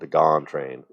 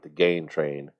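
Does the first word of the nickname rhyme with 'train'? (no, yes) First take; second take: no; yes. First: The name's vowel does not rhyme with train. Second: The name's vowel rhymes with train. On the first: The speaker calls it right. "Doesn't work so well" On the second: The speaker calls it wrong. "when I used to mispronounce his name"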